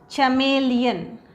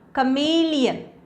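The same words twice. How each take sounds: First: The word begins with a sound other than k. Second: The word begins with a hard k sound. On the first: The speaker calls it wrong. "it's not chameleon" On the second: The speaker calls it right. "it is pronounced as k"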